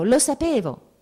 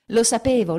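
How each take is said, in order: First: Put-on higher, louder boy insisting with joy; a little boy repeating it happily; boy repeats his favourite phrase to mother; gleeful child. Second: Put-on higher, louder little boy exclaiming; a light child voice, triumphant; boy repeats his favourite phrase; glad child. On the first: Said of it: "ripeteva lui la sua frase preferita". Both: A narrator's reading.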